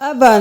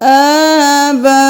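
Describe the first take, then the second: First: The first vowel is short. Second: The first vowel is drawn out long. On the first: The speaker calls it wrong. "अबा नहीं करना" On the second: The speaker calls it right. "आ और फिर बा"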